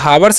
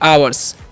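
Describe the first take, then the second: First: The word begins with an h sound. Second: The word begins with a vowel sound. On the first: The speaker calls it wrong. "हावर्स नहीं" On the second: The speaker calls it right. "नहीं आवर्स"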